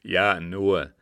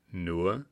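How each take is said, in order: First: Said in the usual way. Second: Ironic questioning "Nur?", rising at the end; "Nur?" as a dry, doubting question. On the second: A narrator's reading. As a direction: echo "Nur?" back with an ironic lift. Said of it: "fragte der Scheik mit ironischer Betonung".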